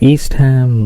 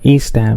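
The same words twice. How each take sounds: First: The h sound in Ham is pronounced. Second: The h sound in Ham is silent. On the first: The speaker calls it wrong. "ఇలా అనకూడదు, అది Indian pronunciation అది" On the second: The speaker calls it right. "So it's something like"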